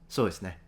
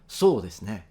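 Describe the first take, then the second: First: The first vowel is only barely lengthened. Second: The first vowel is fully drawn out. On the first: "the latter is almost imperceptible" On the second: "I've heard Japanese fully extended"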